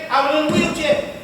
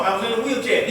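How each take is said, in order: First: I was in a wheelchair repeated higher, each word stressed; raised, pressing repeat of I was in a wheelchair; emphatic repeat. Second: Said in the usual way. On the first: Shown as a demonstration. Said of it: "they'll tell you". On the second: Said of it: "These people here, they'll tell you".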